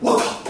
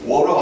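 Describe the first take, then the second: First: The middle t is pronounced hard and strong. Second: The middle t is softened, like a light r. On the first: "세게 발음한다며" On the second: "영국식 발음이 워러 안, 안 한다며"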